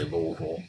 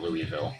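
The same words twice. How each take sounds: First: It is said in the local Kentucky way. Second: It is said in an outsider's way. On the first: The speaker sounds like a local. The speaker calls it right. "If you're from Kentucky, you've got to say Louisville" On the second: The speaker sounds like a northern outsider. The speaker calls it wrong. "It's not Louisville. they'll call you a Yankee if you say it that way"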